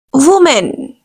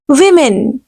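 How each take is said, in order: First: Woman said as "wumən" with an oo sound; wrong woman. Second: Women said as "wimən" with a short i; correct women. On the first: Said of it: "this is absolutely wrong pronunciation". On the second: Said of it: "Correct pronunciation will be women". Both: Shown as a demonstration.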